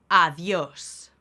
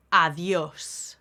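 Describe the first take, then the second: No difference in how they are said.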